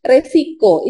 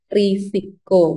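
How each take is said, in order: First: The first vowel sounds like 'e'. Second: The first vowel sounds like 'i'. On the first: The speaker calls it wrong. "selama ini kita mungkin tahunya resiko" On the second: The speaker calls it right. "sebenarnya yang benar adalah risiko"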